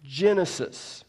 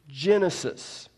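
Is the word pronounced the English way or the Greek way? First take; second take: English; English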